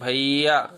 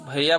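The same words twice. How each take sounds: First: The vowel is stretched out for a long time. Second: The word is said quickly with short vowels. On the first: "ऐसे करके बोलते हैं भैया तो इसमें समय ज्यादा लगता है" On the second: "उस समय तो कम समय लगता है"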